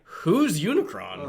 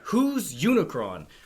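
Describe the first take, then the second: First: The question sounds genuinely curious and new. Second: The question sounds fed up and exasperated. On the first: The speaker calls it right. "it should be more like" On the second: The speaker calls it wrong. "sounds like he's heard the name Unicron and people just keep mentioning it and will not tell him who Unicron is"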